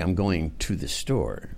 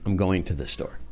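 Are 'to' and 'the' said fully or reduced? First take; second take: fully; reduced. First: 'To' and 'the' are pronounced fully and carefully. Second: 'To' and 'the' are reduced to 'ta' and 'duh'. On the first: "they don't say" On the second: "the word would be ta instead of to. And duh instead of the"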